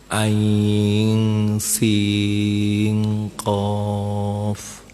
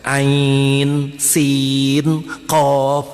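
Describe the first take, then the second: First: The n is hidden and nasalized before s. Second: The n is pronounced fully and clearly before s. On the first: The speaker calls it right. "nun mati bertemu sin dibaca apa? Ikh Ikhfa" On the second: The speaker calls it wrong. "Bukan ain sin qaf, bukan begitu ya"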